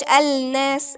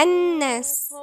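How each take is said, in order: First: الناس with the l sounded, "al-nas"; wrong lam pronunciation. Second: الناس as "an-nas", no l, doubled n; correct silent lam. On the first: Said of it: "ممنوعش". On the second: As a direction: drop the ل in الناس and hold the n. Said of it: "يبقى نقول إيه؟". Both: Shown as a demonstration.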